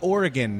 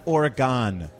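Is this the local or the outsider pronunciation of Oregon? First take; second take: local; outsider. First: It uses the pronunciation locals use. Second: It uses the pronunciation outsiders use. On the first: The speaker calls it right. "it is Oregon" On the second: The speaker calls it wrong. "not Oregon. Assholes who don't live there think it's Oregon"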